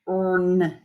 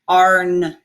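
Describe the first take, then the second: First: The vowel before the r sounds like 'er'. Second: The vowel before the r sounds like 'ar'. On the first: The speaker calls it wrong. "earn is not quite correct" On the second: The speaker calls it right. "you want to say the R sound instead of r"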